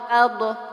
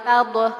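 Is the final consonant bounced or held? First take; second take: bounced; bounced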